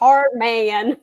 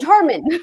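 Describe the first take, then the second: First: The word is drawn out slowly. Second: The word is said quickly and compactly. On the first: The speaker calls it wrong. "draw it" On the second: The speaker calls it right. "it's the"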